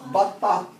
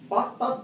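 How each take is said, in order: First: The word ends with a soft h sound. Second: The word ends with a t sound. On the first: The word is the last one before a stop. "if you stop at the word, at the end of the word batta, you say batta. ... With ha" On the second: Another word follows it without a stop. "if you continue, you don't pronounce the ha. You pronounce it as what? Ta"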